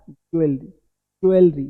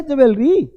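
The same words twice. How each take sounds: First: "ज्वेलरी" as low, falling JOO-el-ree; no v in "ज्वेलरी", glide joo into el; correct pronunciation. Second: "ज्वेलरी" as high juh-VEL-ree; wrong pronunciation. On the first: Teacher models what to say, correct pronunciation. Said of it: "क्या बोलना है". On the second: Teacher points out the error, wrong pronunciation. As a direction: put a v into "ज्वेलरी", pitched up. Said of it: "तो गलत है ज्वेलरी". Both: Shown as a demonstration.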